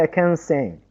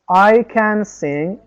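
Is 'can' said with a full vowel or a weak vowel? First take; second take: weak; full. First: The word 'can' is short with a schwa. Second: The word 'can' has a full vowel. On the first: The speaker calls it right. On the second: The speaker calls it wrong.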